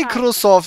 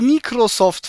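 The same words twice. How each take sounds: First: The name is said in standard pronunciation. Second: The name is said with a mocking foreign accent. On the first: The speaker calls it right. "Das heißt Microsoft" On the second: The speaker calls it wrong. "warum sagst du Microsoft, verdammt?"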